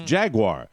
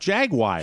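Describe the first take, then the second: First: The word ends with an 'ar' sound. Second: The word ends with a 'wire' sound. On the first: The speaker calls it right. "it's J J A G U A R" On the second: The speaker calls it wrong. "It's not wire"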